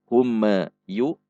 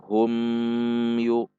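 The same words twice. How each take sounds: First: The m bounces off with an extra echo. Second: The m is stretched out long.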